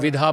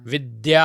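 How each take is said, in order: First: The middle consonant is an aspirated 'dh' sound. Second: The middle consonant is a clear 'dy' cluster. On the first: The speaker calls it wrong. "आज आप जाइए बच्चों से बुलवाइए विद्या, विधा बोल देंगे" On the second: The speaker calls it right. "कितना जोर लगाते थे हमारे टीचर"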